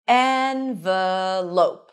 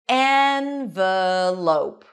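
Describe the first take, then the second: First: The first vowel sounds like 'eh' in red. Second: The first vowel sounds like 'eh' in red.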